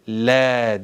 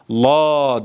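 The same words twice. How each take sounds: First: The L is light and thin. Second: The L is heavy and thick. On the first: The speaker calls it right. "la diye okunur. ... lam harfi ince okunur" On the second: The speaker calls it wrong. "La değil"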